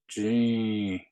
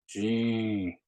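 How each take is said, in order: Both takes have the same delivery.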